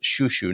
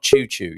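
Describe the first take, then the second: First: It begins with a soft sh sound. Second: It begins with a hard ch sound. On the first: The speaker calls it right. "pronounced shushu" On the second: The speaker calls it wrong. "not choo choo. You don't sound like a, a, a steam train"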